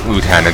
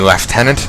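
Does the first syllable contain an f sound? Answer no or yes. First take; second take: no; yes. First: The first syllable has no f sound. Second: The first syllable has an f sound, like 'left'. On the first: This is the form the speaker is used to hearing. "I'm just used to hearing Lieutenant" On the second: This is how the show's characters say it. "keeps saying, saying Lieutenant"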